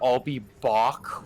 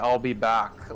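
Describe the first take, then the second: First: The vowel in 'back' is a strong 'aw'. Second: The vowel in 'back' is a plain, natural vowel. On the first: This is how people misremember the line. The speaker calls it wrong. "with like a very strong "aw" sound" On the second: This is how the line is actually said. The speaker calls it right. "with a pretty natural vowel sound"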